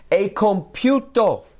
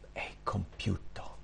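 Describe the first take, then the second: First: High, loud, slow proclamation; loud, drawn-out declaration; triumphant cry. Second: Slow, barely audible whisper; hushed, slow whisper; whispered last words. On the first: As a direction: cry it out as a finished victory. Same words again as a cry. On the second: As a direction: breathe it out like a dying man's last words. Quoting Jesus' dying last words. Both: Acted.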